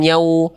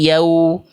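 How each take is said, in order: First: The sound goes through the nose. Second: The sound stays out of the nose. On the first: The speaker calls it wrong. "Jangan yau" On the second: The speaker calls it right. "tapi yau"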